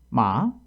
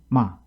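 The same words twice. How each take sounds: First: The syllable rises, dips, then ends higher. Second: The syllable drops sharply and is cut short. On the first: "오 성" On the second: "여섯 번째 육 성은"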